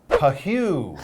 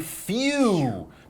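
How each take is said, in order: First: It is said as two syllables, pa-hoo. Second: It is said as one syllable, phew. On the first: The speaker calls it wrong. "he doesn't say Pahoo. It looks like he says Pahoo, but we don't say that" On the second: The speaker calls it right. "We say phew"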